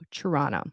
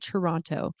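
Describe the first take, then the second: First: The second T is dropped. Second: The second T is clearly pronounced. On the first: The speaker sounds local. The speaker calls it right. "So we do not pronounce the T" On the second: The speaker is probably not from Toronto. The speaker calls it wrong. "We don't say Toronto"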